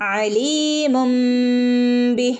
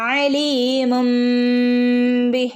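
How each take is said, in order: Both takes have the same delivery.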